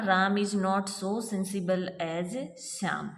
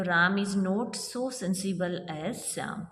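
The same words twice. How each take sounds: First: Slowly, word by word; slow reading. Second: Every word spaced out slowly; slow dictation. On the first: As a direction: spell the sentence out slowly. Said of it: "तो देखिए ये जो है ना". (धीमे-धीमे पढ़ना) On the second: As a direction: read it slowly so they can write. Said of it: "not आते ही हमें पता लग गया". (धीरे-धीरे लिखवाना) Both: Shown as a demonstration.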